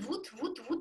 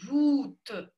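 First: The 'ou' vowel is made further forward. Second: The 'ou' vowel is made further back. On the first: The speaker calls it wrong. "оно тут" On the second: The speaker calls it right. "она должна быть поглубже"

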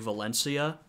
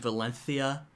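First: The c is said like s. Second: The c is said like th. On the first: This is the pronunciation used in Latin America. "in the Americas, we would just say Valencia" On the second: This is the pronunciation used in Spain. "the Spanish pronunciation Valencia with sort of the lisp"

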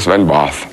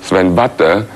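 First: The name is said with an English accent. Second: The name is said with a French accent. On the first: "die Engländer sagen" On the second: "die Franzosen sagen"

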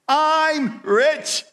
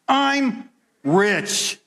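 First: It is said smiling, as if believed. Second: It is said plainly, without a smile.

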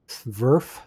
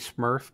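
First: The word is said with a V sound. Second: The word is said with an M sound. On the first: The speaker calls it right. "but instead of an M, it's a V" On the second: The speaker calls it wrong. "that first part is essentially Smurf"

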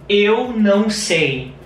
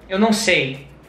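First: It is said at a normal pace. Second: It is said a little faster.

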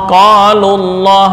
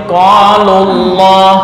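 Both takes have the same delivery.

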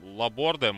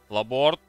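First: The name ends in a final de syllable. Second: The name ends in a final t sound. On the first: "Не знаю, как он правильно все-таки" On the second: "Что-то Лаборт как-то не звучит"

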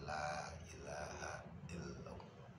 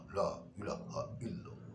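First: It is said softly. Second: It is said loudly.

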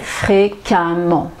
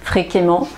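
First: The ending sounds like 'amant'. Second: The ending does not sound like 'amant'. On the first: The speaker calls it right. "mais fréquemment" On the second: The speaker calls it wrong. "ne dites pas fréquemment"

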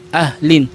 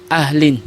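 Both takes have the same delivery.

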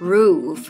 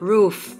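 First: The final f sound is light and short. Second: The final f sound is strong and drawn out. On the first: The speaker calls it right. "ออกเสียงนิดหนึ่งไม่ต้องออกเยอะมาก" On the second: The speaker calls it wrong. "อย่างนี้ไม่ต้องนะ"

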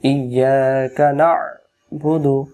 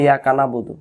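First: The throaty 'ain' sound is clearly pronounced. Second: The throaty 'ain' sound is left out. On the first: The speaker calls it right. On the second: The speaker calls it wrong.

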